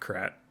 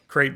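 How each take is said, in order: First: The vowel rhymes with 'cat'. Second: The vowel rhymes with 'late'. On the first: The speaker calls it wrong. "not Krat. That's just how I first read it" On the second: The speaker calls it right. "crate dragons"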